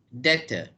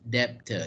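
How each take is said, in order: First: The B sound is silent. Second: The B sound is pronounced. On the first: The speaker calls it right. "the correct pronunciation of this word is" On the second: The speaker calls it wrong.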